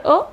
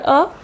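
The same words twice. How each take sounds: First: O as a brief schwa "uh"; shorter O. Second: O as a slightly longer "uh". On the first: Teacher comparing two sounds, shorter O. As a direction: keep the O very short. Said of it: "This is the shorter". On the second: Teacher comparing two sounds, longer O. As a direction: give the O a little more length. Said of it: "this is a longer". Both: Shown as a demonstration.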